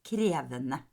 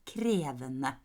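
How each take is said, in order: No difference in how they are said.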